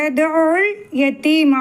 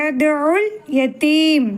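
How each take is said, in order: Both takes have the same delivery.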